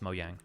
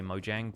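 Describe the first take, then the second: First: It is said with a y-like j sound. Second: It is said with an English j sound. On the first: "in Swedish it's pronounced Mojang" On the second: "when American folks are talking about it, they say Mojang"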